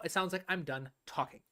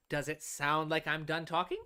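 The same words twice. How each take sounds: First: "talking" drops down in pitch and ends settled, final; falling final tune. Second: "talking?" lifted up in pitch at the end like a real question; rising question tune. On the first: Music teacher showing students how a final statement falls. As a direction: bring the pitch down on "talking" so the thought sounds finished. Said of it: "if I move down in pitch while I'm talking at the end of my phrase".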